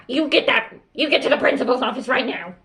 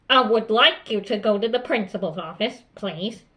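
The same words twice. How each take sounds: First: Fast, agitated outburst; hurried mock tirade at a pupil; yelling teacher demo. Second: Controlled, polite but firm order; even-paced teacher request, no yelling. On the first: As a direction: rattle off the order in a fluster. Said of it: "Don't be like". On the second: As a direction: send them out calmly and firmly. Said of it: "in a firm tone of voice". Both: Shown as a demonstration.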